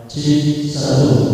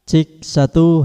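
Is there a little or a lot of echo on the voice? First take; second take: a lot; a little. First: The voice has a heavy, blurring echo effect. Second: The voice has a light echo effect. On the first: "Ini jadinya kurang jelas ya untuk suaranya" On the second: "ini tak buka sedikit, sudah mulai masuk"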